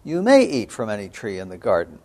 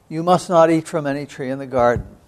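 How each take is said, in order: First: The word "may" stressed with a falling tune. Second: The word "not" leaned on with a falling tune; stress on not. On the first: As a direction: lean on "may" to show permission. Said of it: "'cause God had said". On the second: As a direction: lean on "not" as the serpent's twist. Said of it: "except for the word "not". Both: Shown as a demonstration.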